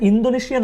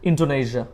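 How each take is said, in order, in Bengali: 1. 'd' হলো একটি নরম দন্ত্য ধ্বনি। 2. 'd' হলো একটি শক্ত দন্তমূলীয় ধ্বনি। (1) "ইন্দোনেশিয়া না বলে" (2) "বলবো ইন্ডো"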